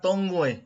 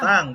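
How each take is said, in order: First: The vowel is rounded, like 'tong'. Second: The vowel is short and open, like 'tang'. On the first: The speaker calls it wrong. "bukan tongue" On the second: The speaker calls it right. "tang, bukan tongue"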